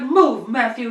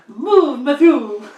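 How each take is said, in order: First: It is said in a plain, unaccented voice. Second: It is said with a put-on French accent.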